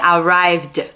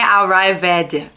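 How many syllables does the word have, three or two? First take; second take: two; three. First: The e is silent, with no extra syllable. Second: The e is pronounced, adding an extra syllable. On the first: The speaker calls it right. "é arrived, ... Você não pronuncia o E de jeito nenhum" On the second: The speaker calls it wrong. "Não é arrived"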